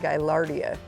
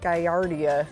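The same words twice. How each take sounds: First: The L sounds are clearly pronounced. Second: The L sounds are left silent. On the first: The speaker calls it right. "but it's actually" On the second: The speaker calls it wrong. "I thought the L's were silent"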